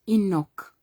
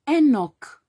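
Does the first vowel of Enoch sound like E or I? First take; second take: I; E. First: The first vowel is an ee-like I sound. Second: The first vowel is an open E sound. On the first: The speaker calls it wrong. "I don't see an I there" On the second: The speaker calls it right. "E is E, not E"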